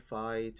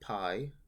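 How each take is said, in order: First: The word begins with an f sound. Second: The word begins with a p sound. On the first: This is the later church pronunciation. The speaker calls it wrong. "one of the gripes I have with the church pronunciation" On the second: This is the original pronunciation. The speaker calls it right. "originally the distinction was very little"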